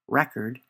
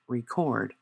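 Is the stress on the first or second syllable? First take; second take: first; second. First: The stress is on the first syllable. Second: The stress is on the second syllable. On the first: It is a noun. "the first is a noun" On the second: It is a verb. "the second is a verb"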